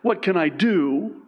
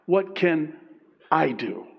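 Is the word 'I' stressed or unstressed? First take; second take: unstressed; stressed. First: The word I is not stressed. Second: The word I is strongly stressed.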